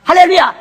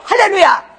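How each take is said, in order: First: Loud ringing hallelujah; preacher's hallelujah. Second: Higher, shouted hallelujah. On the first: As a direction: call it out to the room. (크게 외치는 할렐루야) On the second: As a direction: lift the whole room with it. Preacher calls hallelujah. (높이 외치는 할렐루야) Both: Acted.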